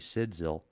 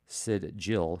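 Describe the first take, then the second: First: The second syllable starts with a 'z' sound. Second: The second syllable starts with a 'j' sound. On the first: This is how the speaker personally says the name. "It's Sidzil. That's what I say" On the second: This is how some other people say the name. "some people call it"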